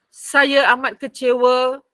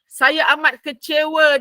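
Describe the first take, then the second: First: It is said in a neutral, reporting tone. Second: It is said in an angry, displeased tone. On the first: Someone is only passing on another person's words. "Kita akan baca dengan nada menyampaikan saja" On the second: The speaker himself is expressing his own anger. "kalau dia baca sendiri, dia akan cakap macam ni"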